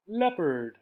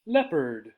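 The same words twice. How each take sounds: The two takes are said the same way.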